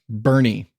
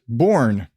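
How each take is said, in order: First: The name is said as two syllables. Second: The name is said as one syllable. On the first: The speaker calls it right. "Apparently, it's pronounced Bernie" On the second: The speaker calls it wrong. "I pronounced it Born"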